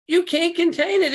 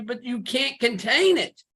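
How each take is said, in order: First: Much higher and louder, preached out; emphatic repeat. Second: Said in the usual way. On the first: Real, not acted. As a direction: lift it up and drive it home.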